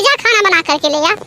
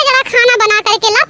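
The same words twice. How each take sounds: First: Grumbled order. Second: Bossy order. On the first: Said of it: "मत ऐसे बोला करो". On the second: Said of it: "यही बात मम्मी जैसे तुम बोल रही हो". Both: Acted.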